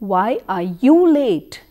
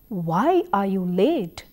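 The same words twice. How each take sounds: First: The stress is on "you". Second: The stress is on "why".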